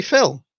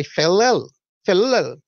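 First: "film" as one clean syllable; plain film. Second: "ffilm" with an extra vowel, fi-lum; Welsh ffilm. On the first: Shown as a demonstration. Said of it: "I just say". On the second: Retold or imitated. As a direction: say "ffilm" as two beats, fi-lum. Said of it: "in my Welsh accent I say".

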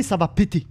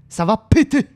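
First: Said in the usual way. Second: "péter" said louder and higher, rising; louder repeat. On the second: Real, not acted. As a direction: repeat it with more punch on "péter".

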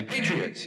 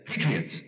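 First: "Patriots" said high and quick with a rising lilt, breezy brush-off; breezy, rising "Patriots" to a fan; tossed-off answer. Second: "Patriots" said with a falling, dismissive drop, barely higher; flat brush-off. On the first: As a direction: fling "Patriots" over your shoulder while walking on. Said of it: "but I'd say". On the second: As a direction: show how a curt "Patriots" would sound to a grieving reader. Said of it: "And you can't say". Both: Retold or imitated.

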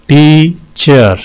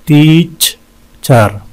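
First: "टीचर" slowly, in two beats; syllable breakdown. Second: "टीचर" very slow, long gap between syllables; wide syllable breakdown. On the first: ("टीचर" दो हिस्सों में धीरे-धीरे) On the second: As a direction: split "टीचर" with a clear pause. ("टीचर" बीच में लंबा रुककर) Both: Shown as a demonstration. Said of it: "इसमें भी दो हैं".

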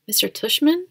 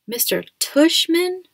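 First: Higher, rising question of surprise; puzzled question. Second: TUSHMAN drawn out, high and loud; incredulous repeat. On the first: Kid questioning mom about the principal's name, puzzled. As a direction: query the name, voice lifting. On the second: Kid repeats the principal's funny name to mom, incredulous stress on Tushman. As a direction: slowly repeat the name, punching Tushman upward in disbelief. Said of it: "I repeated". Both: A narrator's reading.

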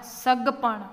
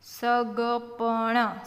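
First: Said in the usual way. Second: Slow, open syllables; sounded out. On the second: Shown as a demonstration. Teacher breaking a word down, sounded out. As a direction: stretch સગપણ out as sa-ga-pa-na.

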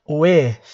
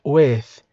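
First: "With" said carefully for students to copy; pronunciation demo. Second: "with" repeated carefully with a clear ending; pronunciation demo repeated. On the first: Teacher showing students how to say "With". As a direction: model the word "With" clearly. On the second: Teacher repeating "with" so students hear the sound. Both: Shown as a demonstration. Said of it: "olha a pronúncia".

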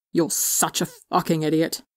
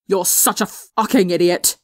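First: Muffled. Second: Yelled. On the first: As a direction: say it face buried in a sweater. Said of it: "his voice muffled by fabric". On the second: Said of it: "Tommy yelled". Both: A narrator's reading.

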